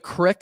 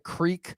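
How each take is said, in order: First: The vowel is short, like in 'pick'. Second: The vowel is long, like in 'seek'. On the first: "very weird, uh, lingo and accents up in the Northeast" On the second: "not the creek"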